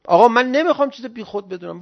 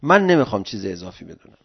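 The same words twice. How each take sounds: First: A raised, insistent I do not want to; emphatic refusal. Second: Said in the usual way. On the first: Shown as a demonstration.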